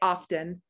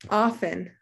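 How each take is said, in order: First: The T sound is pronounced in the middle. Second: The T sound is left out in the middle. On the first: "although I hear people say often for this" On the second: "Here's another silent T"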